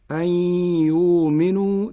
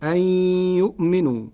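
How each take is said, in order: First: يؤمنوا as yuminu, hamza turned long u; Warsh reading. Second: يؤمنوا with the hamza kept, yu'minu; Hafs reading. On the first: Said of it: "بإبدال الهمز حرف مد". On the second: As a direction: keep the glottal stop in يؤمنوا. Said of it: "قرأ ورش كلمة "يؤمنوا". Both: Shown as a demonstration.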